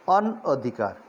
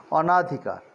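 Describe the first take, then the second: First: "अनअधिकार" split as "on-odhikar", short second vowel; correct form. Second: "अनाधिकार" run together with a long a, "onaa-dhikar"; incorrect form. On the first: Teacher gives the correct word अनअधिकार, split as "on-odhikar". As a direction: say "अनअधिकार" in two parts, "on" then "odhikar". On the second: Teacher reads the faulty form अनाधिकार with long "naa". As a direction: say "अनाधिकार" with a long second vowel. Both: Shown as a demonstration. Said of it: "जो शुद्ध शब्द है अनअधिकार".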